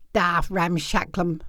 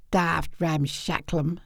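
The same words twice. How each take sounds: First: Low, slow country uncle voice; gruff old uncle. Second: Low, slow gruff uncle; Uncle Art. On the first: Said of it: "said Uncle Art". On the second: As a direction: drawl it deep and slow. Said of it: "says Uncle Art". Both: Acted.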